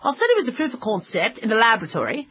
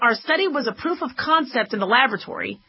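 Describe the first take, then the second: First: It is read in a put-on British accent. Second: It is read in the speaker's ordinary accent.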